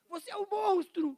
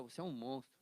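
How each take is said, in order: First: "Você é um monstro" said much higher and louder, "monstro" falling hard; a shocked, loud "Você é um monstro" with a falling "monstro"; accusing intonation. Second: Said in the usual way. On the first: Shown as a demonstration. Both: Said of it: "dependendo da entonação".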